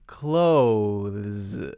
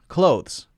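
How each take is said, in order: First: The th sound is clearly pronounced. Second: The th sound is dropped, like close. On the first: "you're supposed to pronounce it, and if you look at the phonemes, it's clothes. There's a th" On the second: "They say it so quickly that it might as well just be close"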